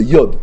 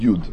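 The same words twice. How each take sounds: First: יוד said "yod", with an o; a firm o vowel in יוד, "yod"; corrected pronunciation. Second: יוד said "yud", with a u; a lower, u-vowel יוד, "yud". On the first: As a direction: pronounce יוד as "yod", not "yud". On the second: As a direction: pronounce יוד as "yood". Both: Shown as a demonstration. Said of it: "כן, זו טעות".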